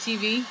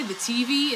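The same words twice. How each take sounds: First: Said in the usual way. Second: "T V" with the weight on T; stress on first syllable. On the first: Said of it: "instead of T V". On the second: Shown as a demonstration. Demonstrating her own odd habit to viewers, "T V" stressed on T. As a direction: lean on the T in "T V", letting V drop. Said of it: "I put the emphasis on the wrong syllable".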